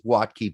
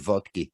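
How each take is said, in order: First: The name is said with an American pronunciation. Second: The name is said with a German pronunciation. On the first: This is how the man himself probably says it. "probably goes with Watke" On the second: This would be the original German form of the name. "in German it'd be vodka"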